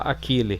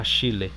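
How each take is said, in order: First: The middle consonant is a 'k' sound. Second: The middle consonant is an 'sh' sound. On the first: The speaker calls it wrong. "Tem gente que fala Aquile, mas não é" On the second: The speaker calls it right. "é Achille"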